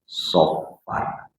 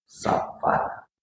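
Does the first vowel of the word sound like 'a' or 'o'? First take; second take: o; a. First: The first vowel is a dark, rounded 'o'. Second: The first vowel is a plain, open 'a'. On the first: This follows the original Arabic letter. "Hurufnya pakai sof" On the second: This is how people in Indonesia say it. "Tapi kita di Indonesia bilangnya Safar"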